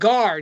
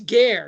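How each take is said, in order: First: The vowel is not the Latin E sound. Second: The vowel is the Latin E sound. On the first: The speaker calls it wrong. "is it Gar? No" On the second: The speaker calls it right. "it's pronounced like, you know, the, the Roman E there"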